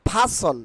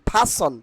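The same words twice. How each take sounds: The two takes are said the same way.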